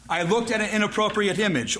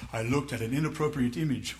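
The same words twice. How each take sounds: First: Said in the usual way. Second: Low, soft, minimizing admission; mock sheepish confession. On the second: Sinner softening his confession to the church, mock sheepish. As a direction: slip it out quietly, acting sheepish.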